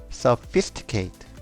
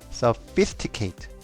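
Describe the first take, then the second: The two takes are said the same way.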